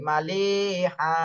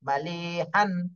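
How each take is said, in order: First: The word ends with a lengthened a, no n. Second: The word ends with a short a and n.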